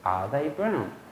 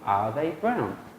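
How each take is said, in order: First: Only 'are' and 'brown' are stressed. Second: Only 'are' and 'brown' are stressed.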